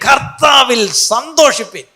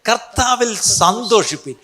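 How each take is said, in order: First: The phrase is shouted very loudly. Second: The phrase is said at normal volume.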